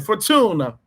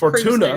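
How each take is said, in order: First: It is said in an Italian accent. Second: It is said in a plain English accent. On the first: The speaker calls it right. "say it in an Italian accent, it'll sound better" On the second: The speaker calls it wrong. "you're definitely pronouncing it wrong though"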